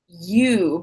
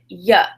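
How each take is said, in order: First: The word is said fully, with a clear vowel. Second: The word is unstressed and reduced, like 'ya'. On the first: "It's not you" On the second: "the pronoun you is not stressed, and it becomes kind of like yeah"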